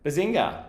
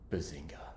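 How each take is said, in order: First: It is said as a bouncy Sheldon impression. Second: It is said in the speaker's plain voice.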